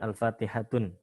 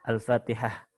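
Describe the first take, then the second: First: The word ends with a full case ending. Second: The word ends without a case ending. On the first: The speaker calls it wrong. "bukan Al-Fatihatun" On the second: The speaker calls it right. "Seperti misalkan Al-Fatihah"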